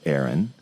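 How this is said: Aaron is said with a West Coast US accent.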